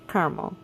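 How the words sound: It is said with an American Midwestern pronunciation. "I pronounce it caramel. ... in Missouri"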